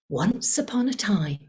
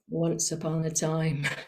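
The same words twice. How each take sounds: First: The pitch varies expressively across the phrase. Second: The pitch stays flat across the phrase. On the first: The speaker calls it right. "when the storyteller wants to jo- draw you in, they go" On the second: The speaker calls it wrong. "They don't go"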